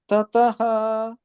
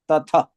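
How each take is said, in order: First: The ending of the word is drawn out. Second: The ending of the word is cut short. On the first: The word comes at the end of a line. "if it comes at the end letter, tataha, you'll pronounce that way" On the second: The word comes at the beginning or middle of a line. "this is in the beginning or in the middle. Tatha. So you should like cut it"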